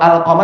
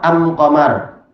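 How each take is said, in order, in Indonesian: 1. Artikelnya diucapkan dengan bunyi l. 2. Artikelnya diucapkan dengan bunyi m.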